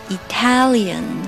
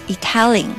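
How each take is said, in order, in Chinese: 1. 最后一个音节保留轻读的a音。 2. 最后一个音节省去轻读的a音。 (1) "不要把小a 的音给忘掉了" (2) "not Italian"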